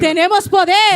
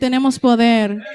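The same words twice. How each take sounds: First: It is said lively, with enthusiasm. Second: It is said flatly, with indifference. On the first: The speaker calls it right. "Díselo como, como entusiasmado" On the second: The speaker calls it wrong. "no se lo diga como si nada"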